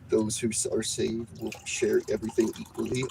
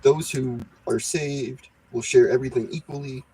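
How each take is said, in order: First: It is read quietly. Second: It is read loudly.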